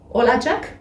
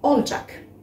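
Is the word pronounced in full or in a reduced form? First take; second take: full; reduced. First: Every syllable of the word is pronounced fully. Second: The word is shortened, with sounds dropped. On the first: This is the standard form. "on utilise la possession suivie du olacak" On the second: This is how people say it in everyday speech. "vous pouvez entendre les gens le dire aussi olacak dans la vie de tous les jours"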